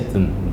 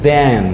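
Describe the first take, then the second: First: It has a reduced, weak vowel. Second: It has a full, strong vowel. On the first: The speaker calls it right. "we say than" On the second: The speaker calls it wrong. "We do not say than"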